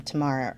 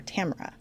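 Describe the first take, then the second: First: Tamara as tuh-MAR-uh; alternative pronunciation. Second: Tamara as TAM-er-uh; alternative pronunciation. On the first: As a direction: stress the long "ah" in the middle of Tamara. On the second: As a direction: put the stress first in Tamara, with a short a. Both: Shown as a demonstration. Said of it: "says her name Tamara or Tamara".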